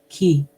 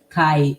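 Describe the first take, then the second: First: The vowel sounds like 'ee'. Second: The vowel sounds like 'eye'. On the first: The speaker calls it right. "I is always going to be ki" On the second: The speaker calls it wrong. "not, uh, you know, kai or whatever"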